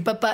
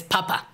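First: Papá with the stress on the last syllable, pa-PÁ; French papá. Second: Papa with the stress on the first syllable, PA-pa; German papa. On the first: Co-host shows the French word for dad, final syllable stressed. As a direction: say papá French style, landing on the end. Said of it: "la palabra francesa para decir papá es papá". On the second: Co-host shows the German word for dad, first syllable stressed. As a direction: say papa German style, hitting PA. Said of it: "la palabra alemana para decir papá es papa". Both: Shown as a demonstration.

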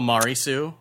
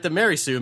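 First: "Mari Sue" with an "ah" vowel, MAH-ree; "Mari" said like Mario's first syllable; corrected pronunciation. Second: "Mary Sue" with Mary like marry; mispronounced Mary Sue. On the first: Shown as a demonstration. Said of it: "is pronounced Mari Sue". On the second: Real, not acted. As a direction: says "Mary" as in the name Mary. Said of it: "my employer is pronounced Mari Sue".

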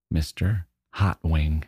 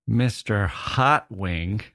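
First: Said in the usual way. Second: Slow, rising disbelief on hot; Mister Hot Wing? drawn out slow in mock disbelief; incredulous question. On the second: Naming the goldfish, then questioning it.

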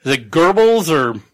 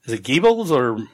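First: Goebbels said as "Gerbels", with an r-coloured er; other pronunciation. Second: Goebbels said as "Gibbles", with an ee sound; unsure pronunciation. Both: Shown as a demonstration. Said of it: "who, who ends up in charge?".

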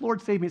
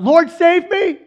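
First: Said in the usual way. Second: High, loud hammed-up cry for help; desperate cry. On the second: Sinking Peter cries to Jesus, acted desperate shout. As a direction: cry out like a drowning man. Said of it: "as he's sinking, he cries out".

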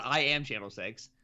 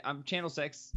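First: "I am" said in full, uncontracted; stress on AM. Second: Said in the usual way. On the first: News lady introducing herself, stress on "I am". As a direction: spell out "I am" as a grand self-introduction. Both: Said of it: "I think she said".

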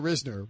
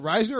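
First: Risner said as RIZ-ner; first syllable of Risner rhymes with "fizz"; short-i pronunciation. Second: Risner said as RYZE-ner; first syllable of Risner rhymes with "size"; long-i pronunciation. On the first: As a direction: say Risner with the vowel of "sit". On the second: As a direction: say Risner with the vowel of "eye". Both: Shown as a demonstration. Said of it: "Is it Risner or Risner?".

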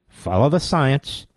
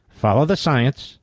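Both takes have the same delivery.

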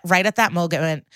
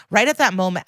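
First: "moment" garbled with a stray hard g, like "mogement"; garbled word. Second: Said in the usual way. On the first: Real, not acted. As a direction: stumble over "moment" as "MOH-guh-ment". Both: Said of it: "I've invented a lot of words".

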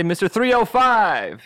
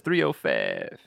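First: High, drawn-out FIVE with a clear long-i vowel; standard "five". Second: Low "five" squashed toward "fev". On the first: Shown as a demonstration. Comic showing what the rapper doesn't say, clearly pronounced "five". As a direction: say "five" in full, stretched and high. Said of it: "he doesn't say". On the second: Retold or imitated. Comic showing what the rapper really says, low "five" as "fev". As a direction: drop the pitch and flatten "five" into "fev". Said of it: "He says".

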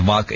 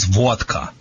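First: Vodka with an open AH; wrong vowel. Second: Vodka with a rounded AW; corrected vowel. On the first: Dog wizard apologizing for his accent, vodka said VAHT-ka. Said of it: "sorry for Michigan accent". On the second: Dog wizard teaching the right name, vodka said VAWT-ka. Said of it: "the right name is vodka". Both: Shown as a demonstration.

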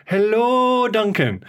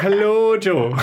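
First: Light Irish lilt, raised pitch; a hint of Jo's Irish greeting; imitating Irish accent. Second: Laughing light Irish lilt, higher; reply with a half-laughed Irish accent; his own Irish reply. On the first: Duncan imitating Jo's cheerful Irish greeting. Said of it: "she's like". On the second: Retold or imitated. Duncan mimicking his own Irish accent back to Jo. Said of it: "And I'll be like".

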